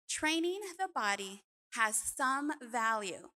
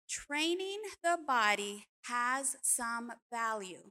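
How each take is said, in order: First: The line is read at a normal pace. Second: The line is read slowly.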